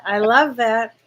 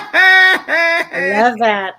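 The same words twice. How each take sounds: First: Said in the usual way. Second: Very slow, louder, savoring each word; drawn-out delight. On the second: Real, not acted. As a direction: let it melt out slowly, loud and heartfelt.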